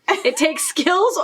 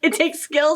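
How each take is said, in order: First: It is said in a put-on pirate accent. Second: It is said in her plain natural voice.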